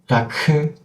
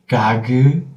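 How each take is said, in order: First: The final consonant is released with a breathy keu. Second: The final consonant is released with a soft geu. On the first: "you open your throat again to make the second sound" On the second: "you open your throat again to make the second sound"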